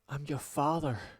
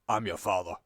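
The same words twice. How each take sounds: First: It is said warmly, with emotion. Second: It is said flatly, without emotion. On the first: A father moved to see his daughter again. The speaker calls it right. "Wouldn't you go" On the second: A cold, suspicious reunion. The speaker calls it wrong. "Kinda sus the way he, he just said"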